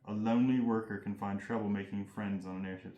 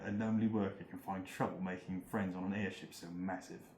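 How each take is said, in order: First: It is said in the speaker's normal accent. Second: It is said in a put-on British accent.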